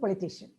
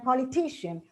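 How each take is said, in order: First: The stress is not on the third syllable. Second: The stress is on the third syllable. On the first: The speaker calls it wrong. "unless we know this, we say" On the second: The speaker calls it right. "with stress on t"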